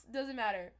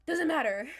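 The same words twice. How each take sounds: First: Said in the usual way. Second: Much louder, flung out; emphatic. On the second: Real, not acted. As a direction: shout it away. Insists it does not matter.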